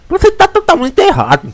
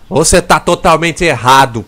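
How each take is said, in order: First: It is said in a slack-mouthed, imitated voice. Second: It is said in a plain, ordinary voice. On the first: "Ele fala assim" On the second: "Mas ele não fala assim"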